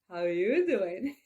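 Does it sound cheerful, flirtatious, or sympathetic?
flirtatious. It sounds smooth and flirtatious. The speaker is playfully chatting someone up. "Or like Joey in Friends"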